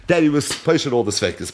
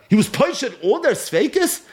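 First: Said in the usual way. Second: Rising, disbelieving question on their; incredulous question. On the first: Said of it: "It doesn't say anywhere in the Gemara". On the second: Shown as a demonstration. Rabbi challenging students, incredulous rising question. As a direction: ask it with high doubt.

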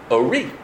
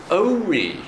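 First: Ori with the final "ri" stressed; stress on second syllable. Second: Ori with a drawn-out, stressed "O"; stress on first syllable. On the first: Teacher explaining "my light", Ori stressed on the last syllable. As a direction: lean on the end of Ori. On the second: Teacher explaining the command form, Ori stressed on the first syllable. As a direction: stretch and hit the start of Ori. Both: Shown as a demonstration. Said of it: "where you put the stress changes the word".

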